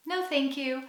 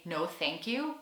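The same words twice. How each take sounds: First: Higher, softer smiling refusal; nice intonation. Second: Said in the usual way. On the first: Shown as a demonstration. Customer politely declining at a cafe, with a nice smiling intonation. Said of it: "a nice intonation and a smile". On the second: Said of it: "much easier to just say".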